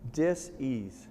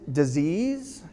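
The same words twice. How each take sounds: First: The word is split apart with shifted stress. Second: The word is said smoothly with normal stress. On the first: It means a lack of ease. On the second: It means an illness.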